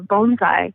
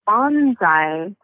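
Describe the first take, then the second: First: The first syllable sounds like 'bone'. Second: The first syllable does not sound like 'bone'. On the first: It means a plant in a pot. The speaker calls it right. "you pronounce it like our bone" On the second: It is the word shouted when jumping out of a plane. The speaker calls it wrong. "people often mispronounce it as bonsai"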